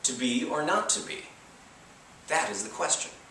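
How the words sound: It follows the familiar natural-speech stress.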